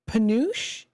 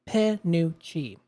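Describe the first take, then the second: First: The word ends with a 'sh' sound. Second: The word ends with an 'ee' sound. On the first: The speaker calls it wrong. "Is that how it's pronounced? I don't know" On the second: The speaker calls it right. "It's pronounced Panucci"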